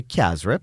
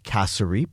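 First: Kasrip clipped to two syllables, the middle vowel dropped; Guyanese kasrip. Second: Kasarip with three syllables, ka-sa-rip; full kasarip. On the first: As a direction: say kasrip the Guyanese way, kas-rip. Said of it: "the Guyanese will say kasrip". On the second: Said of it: "or the Guyanese will say kasrip". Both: Shown as a demonstration.

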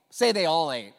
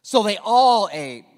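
First: Said in the usual way. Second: Slow, loud, every word leaned on; big preacher's declaration; emphatic proclamation. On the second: Shown as a demonstration. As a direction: proclaim it to the room.

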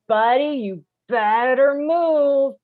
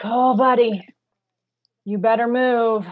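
First: Louder, higher, drawn-out threat; angry warning. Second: A strained, patient warning to the stalled driver; forced calm warning. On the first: Driver honking at the stalled car, now openly angry. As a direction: let the patience snap on the last word. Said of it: "You go like". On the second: Driver at a green light, warning the car ahead, strained calm. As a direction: hold the anger down, warn him. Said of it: "you take a deep breath and you go like". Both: Pretend.

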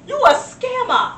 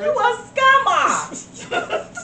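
First: Higher, slower accusation; accusing scammer. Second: Very slow, high, sing-song "You a scammer."; drawn-out accusation. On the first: Accusing a phone scammer, slow and high. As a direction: call out the scammer. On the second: Mocking a phone scammer, "You a scammer." stretched slow. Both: Acted.

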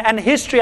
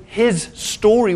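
First: Said in the usual way. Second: His story, two words, slow, HIS stressed; split into his story. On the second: Shown as a demonstration. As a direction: break history into his story. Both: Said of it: "is the word".

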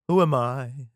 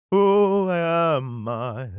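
First: Said in the usual way. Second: Very slow, loud, higher wail; drawn-out question. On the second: Acted. King David before the Lord, slow exaggerated questioning. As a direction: stretch every word grandly.

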